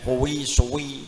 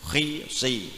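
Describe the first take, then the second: First: The lips are strongly rounded, almost a wu sound. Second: The lips are only slightly rounded. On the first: The speaker calls it wrong. "tidak begitu" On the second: The speaker calls it right. "dalam sifat bibirnya saja"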